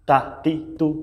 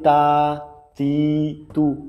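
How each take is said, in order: First: The vowels are kept short. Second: The vowels are drawn out long. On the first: The speaker calls it right. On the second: The speaker calls it wrong.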